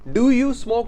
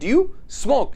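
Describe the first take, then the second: First: Do and you are said as separate words. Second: Do and you are blended into one syllable. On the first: The speaker calls it wrong. "डू यू smoke ना बोल के" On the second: The speaker calls it right. "आप सीधा बोलेंगे ड्यू smoke"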